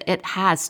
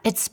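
First: Two full words, with the h clearly pronounced. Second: One short contracted syllable ending in s. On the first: "你可以说It has been so long" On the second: "在口语里面呢我们通常这个It has 就变成了It's"

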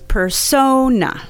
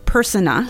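First: The stress is on the second syllable. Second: The stress is not on the second syllable. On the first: The speaker calls it right. "But the stress is on the second syllable" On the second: The speaker calls it wrong. "It's not persona"

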